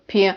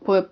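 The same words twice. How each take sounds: First: P palatalized as "pyuh"; palatalized Slavic P; soft P. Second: P as a plain hard "puh"; non-palatalized Slavic P. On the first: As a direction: say P soft, with a y-glide. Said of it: "soft form". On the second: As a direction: say P without palatalizing. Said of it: "They hear this difference". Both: Shown as a demonstration.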